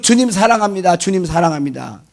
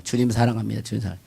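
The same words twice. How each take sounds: First: Devout profession. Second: Softer, trailing-off mock devotion; softer and lower, drifting off mid-word; fading devotion. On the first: Retold or imitated. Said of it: "그러잖아요". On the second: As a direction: let the praise fade into a mumble. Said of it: "그렇게 다녀요".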